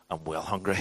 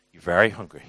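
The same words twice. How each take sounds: First: Said in the usual way. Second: Very hit louder with a falling close; stress on very. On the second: Retold or imitated. Dad correcting his son's grammar, leaning on very. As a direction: lean on very to correct the kid. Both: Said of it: "it's not proper English".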